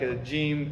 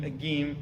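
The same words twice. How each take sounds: First: "jim" said cleanly the standard way; standard Arabic jim. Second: "gim" said with a hard g, Egyptian style; "gim" with a hard g in place of j. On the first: Teacher showing the standard jim to students. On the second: Teacher mimicking the Egyptian letter for students. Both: Shown as a demonstration. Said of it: "Because then you get, like".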